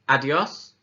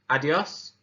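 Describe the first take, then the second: Both takes have the same delivery.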